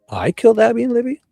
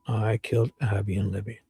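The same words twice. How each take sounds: First: The voice rises at the end like a question. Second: The voice falls at the end like a statement. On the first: The speaker is questioning an accusation. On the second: The speaker is confessing.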